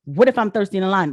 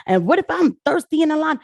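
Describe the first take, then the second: First: Quick, dismissive retort; repeating the complaint to scoff at it, quick. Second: Mock complaint, pitched up and louder; the whining voter, a mocking imitation pitched up; mocking whine. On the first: Real, not acted. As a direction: toss the line back fast and dismissive. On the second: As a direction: parrot the complaint higher and louder, in a whiny tone.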